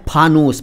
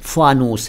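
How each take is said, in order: First: The first sound is an aspirated p. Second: The first sound is a soft f. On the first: The speaker calls it wrong. "लेकिन बोला गया है" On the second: The speaker calls it right. "फ के नीचे नुक्ता"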